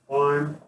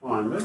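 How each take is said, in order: First: The ending is a plain 'd' sound. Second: The ending is said with an extra 'id' syllable. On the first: The speaker calls it right. "it's climb, D" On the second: The speaker calls it wrong. "It's not climb it"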